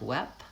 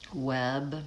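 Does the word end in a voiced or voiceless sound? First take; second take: voiceless; voiced. First: The final consonant is voiceless, a p sound. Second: The final consonant is voiced, a b sound. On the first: The speaker calls it wrong. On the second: The speaker calls it right.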